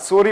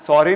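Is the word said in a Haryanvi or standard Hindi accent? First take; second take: standard; Haryanvi. First: It is said with a standard vowel sound. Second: It is said with a Haryanvi-accented vowel sound. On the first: The speaker calls it right. "सॉरी होता है" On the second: The speaker calls it wrong. "सॉरी नहीं होता"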